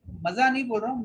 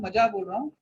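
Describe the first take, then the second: First: "मजा" said "maza", with a z; standard z sound. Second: "मजा" said "maja", with a hard j; local j sound. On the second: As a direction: say "मजा" with j, the Ahmednagar way. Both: Shown as a demonstration. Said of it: "ये मजा जो बोल रहा हूँ मैं जानबूझ के".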